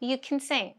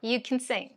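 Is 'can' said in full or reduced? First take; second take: reduced; reduced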